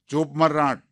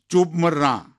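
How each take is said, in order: First: Put-on old man snapping the wife silent, louder; mock angry old husband hissing ચૂપ મર; angry hush. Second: ચૂપ મર barked louder and higher; hammed-up old husband yelling ચૂપ મર; furious shout. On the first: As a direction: cut her off with a harsh command. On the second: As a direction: shout her down for good. Husband silences wife angrily.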